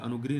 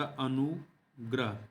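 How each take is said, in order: First: "अनुगृह" with gri, an i after gr; wrong form. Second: Very slow "अनुग्रह" as anu, grah; correct form, broken up. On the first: Teacher rejecting the misspelling, wrong form "अनुगृह" with gri. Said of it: "नहीं होता". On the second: Teacher giving the right word, slow "अनुग्रह" with grah. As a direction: split "अनुग्रह", with an a after gr. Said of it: "अनुग्रह होता है". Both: Shown as a demonstration.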